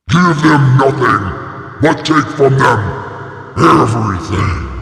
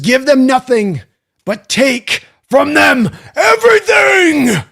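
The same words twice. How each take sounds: First: It is said in a deep monster voice. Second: It is said in his normal voice.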